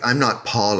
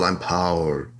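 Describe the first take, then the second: First: Said in the usual way. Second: "Paul" in an affected foreign way; Europeanized "Paul". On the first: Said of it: "pretentious people in the eighties". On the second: Retold or imitated. Imitating pretentious people renaming themselves, "Paul" made exotic. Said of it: "tried to Europeanize their names".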